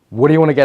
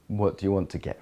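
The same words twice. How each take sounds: First: The voice sounds intense and energetic. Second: The voice sounds soft and receptive. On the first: "A fiery way" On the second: "A watery way would be, ... More receptive"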